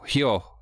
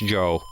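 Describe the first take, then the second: First: The word begins with an audible h sound. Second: The word begins without any h sound. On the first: The speaker calls it wrong. "so I thought it was Hyo Hyo. No, completely off" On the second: The speaker calls it right. "It was just Joe"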